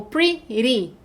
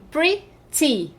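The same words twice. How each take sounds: First: "pretty" broken into pri and ree; "pretty" as pri, pause, ree; split, tapped t. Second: "pretty" broken into pri and tee; "pretty" as pri, pause, tee; split, true t. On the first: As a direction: say "pretty" slowly with a flapped second syllable. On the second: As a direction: say "pretty" in two beats with a clear t. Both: Shown as a demonstration. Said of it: "Tenho duas sílabas".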